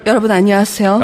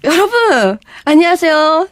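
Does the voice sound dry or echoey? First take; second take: echoey; dry. First: The voice has added reverb and echo. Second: The voice sounds dry, with no added echo.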